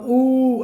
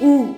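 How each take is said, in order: First: The vowel is held about twice as long. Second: The vowel is held very briefly. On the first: It is a long vowel of two measures. "दीर्घ हो गया" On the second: It is a short vowel of one measure. "ह्रस्व स्वर हो गया"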